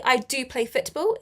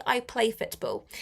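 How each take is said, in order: First: I do play football, with do pushed; stress on do. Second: Said in the usual way. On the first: Shown as a demonstration. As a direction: lean on do for emphasis. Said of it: "It's for emphasis". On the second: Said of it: "Or you can say".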